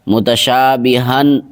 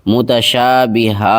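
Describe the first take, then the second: First: The word ends with an 'n' sound. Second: The word ends on a plain vowel. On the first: The speaker calls it wrong. "ऐसे नहीं रुकेंगे" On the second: The speaker calls it right. "ऐसे रुकेंगे"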